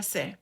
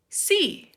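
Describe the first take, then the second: First: C said as Spanish "seh"; short "seh" for the letter C; Spanish letter name. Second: Sí said as English "see", pitched high; high, clear "see" for the letter; English letter name. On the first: Teacher names the letter in Spanish first, C as "seh". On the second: Teacher models English for learners, sí as letter name "see". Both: Shown as a demonstration. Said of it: "Decimos en inglés".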